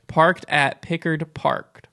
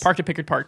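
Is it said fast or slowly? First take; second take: slowly; fast. First: It is said slowly. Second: It is said fast.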